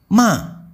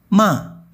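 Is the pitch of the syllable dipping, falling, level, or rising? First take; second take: falling; falling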